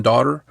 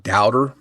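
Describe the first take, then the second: First: Said in the usual way. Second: "doubter" said with an OW vowel in place of AW; caller's accented daughter. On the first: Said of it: "more like doubter than daughter". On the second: Shown as a demonstration. Co-host showing listeners the caller's accent, "doubter" with an OW vowel. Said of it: "had an accent on the word daughter".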